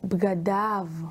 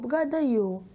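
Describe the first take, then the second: First: The word ends with an 'av' sound. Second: The word ends with a non-'av' sound. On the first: The speaker calls it right. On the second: The speaker calls it wrong.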